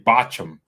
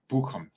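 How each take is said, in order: First: The name is said with a casual anglicized vowel. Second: The name is said with a careful German-style vowel. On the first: This is the careless everyday way of saying it. The speaker calls it wrong. "I could just say Bacham, like every normal person" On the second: This is the effort to say it as locals do. The speaker calls it right. "look how I'm saying that"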